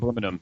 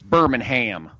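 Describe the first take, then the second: First: It is said with a British pronunciation. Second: It is said with an American pronunciation. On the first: It names the city in England. "it would be England" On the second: It names the city in Alabama. "We're not in England. It's Birmingham"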